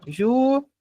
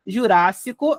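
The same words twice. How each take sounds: First: Ju-ra-ci-co in four separate beats, long pauses between; syllable by syllable. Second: Jurássico as one word, leaning on RÁS; Jurássico with its second syllable strongest; stressed syllable. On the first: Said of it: "contar certinho das sílabas". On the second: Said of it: "é a nossa sílaba mais forte". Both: Shown as a demonstration.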